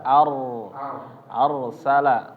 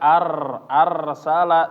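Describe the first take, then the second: First: The r is trilled lightly and sounds heavy. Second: The r is trilled strongly and for long. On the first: The speaker calls it right. "dikurangi getarannya dan ditebalkan" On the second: The speaker calls it wrong. "jangan sampai ar arsala"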